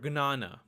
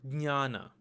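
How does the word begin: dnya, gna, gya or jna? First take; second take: gna; dnya. First: The word begins with a hard g-n sound. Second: The word begins with a d-n-y sound. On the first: This is how it is said in Gujarati. "it's pronounced as gna" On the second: This is how it is said in Marathi. "which is pronounced as dnya"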